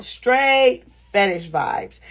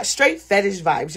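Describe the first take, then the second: First: Drawn out word by word; slow, emphatic. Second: Said in the usual way. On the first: Real, not acted. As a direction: stretch "Straight" long, then pause before "fetish vibes". Repeats it slowly for emphasis.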